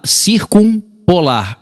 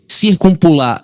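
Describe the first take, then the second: First: "circumpolar" stretched very slow, syllable by syllable: cir-cum-po-lar; slowed down word. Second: Said in the usual way. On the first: Shown as a demonstration. Teacher repeats the word to the class, very slow. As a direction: draw out "circumpolar" so the class hears each piece. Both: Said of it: "O que que tá errado aí no circumpolar?".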